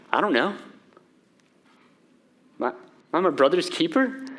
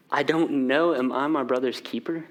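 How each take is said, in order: First: Cold, callous, scoffing deflection; scoffing Cain. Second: Said in the usual way. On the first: Acted. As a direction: toss the question back with a cold sneer. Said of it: "you hear the scoffing in that?". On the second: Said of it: "And Cain says".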